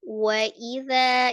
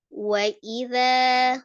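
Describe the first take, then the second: The two takes are said the same way.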